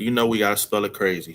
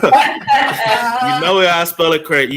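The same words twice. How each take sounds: First: Said in the usual way. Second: Laughing through the words, higher and louder. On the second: Real, not acted. S1 laughs about his daughter's odd name spelling. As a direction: crack up as you say it.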